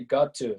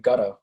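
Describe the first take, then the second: First: Both words are said fully and separately. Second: The words blend into one reduced word. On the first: The speaker calls it wrong. "you don't say got to" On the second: The speaker calls it right. "say gotta"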